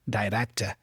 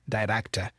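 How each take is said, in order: Both takes have the same delivery.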